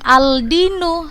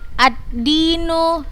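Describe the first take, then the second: First: The l is pronounced clearly before the d. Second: The l merges into a doubled d sound. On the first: The speaker calls it wrong. "bukan al-dinu" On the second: The speaker calls it right. "nggak dibaca jelas alif lamnya, langsung ke huruf setelahnya"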